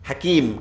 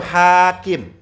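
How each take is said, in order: First: The second vowel is drawn out long. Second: The first vowel is drawn out long. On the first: It names a lesser-known Sufi scholar. "Ya-nya panjang itu lihat" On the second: It names the famous hadith scholar. "Haknya panjang"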